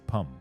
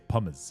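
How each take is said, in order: First: The word ends without any s sound. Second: The word ends with an audible s sound. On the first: The speaker calls it right. "you just say pum" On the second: The speaker calls it wrong. "you don't say pummes"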